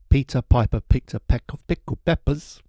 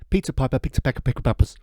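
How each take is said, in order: First: The phrase is spoken at a normal pace. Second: The phrase is spoken very quickly.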